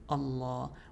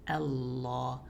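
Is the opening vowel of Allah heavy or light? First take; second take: heavy; light. First: The opening hamza vowel sounds heavy and dark. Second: The opening hamza vowel sounds light and bright. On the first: The speaker calls it wrong. "we're not saying uh" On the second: The speaker calls it right. "we're saying Allah"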